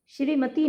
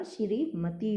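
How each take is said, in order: First: श्रीमती run together as one word; mispronounced श्रीमती. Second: श्रीमती in two parts, "shree, matee", softer; correct श्रीमती. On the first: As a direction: say श्रीमती without a break. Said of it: "नहीं होता". (श्रीमती एक साँस में, गलत रूप) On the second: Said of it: "होता है". (श्रीमती में लंबा श्री, धीमी आवाज़) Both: Shown as a demonstration.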